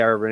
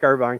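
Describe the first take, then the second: First: The last syllable sounds like 'vin'. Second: The last syllable sounds like 'vine'. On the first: This is how locals in Kentucky say it. "I have to just say Irvin" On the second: This is how the California place is said. "It's how it's spelled, like Irvine, California"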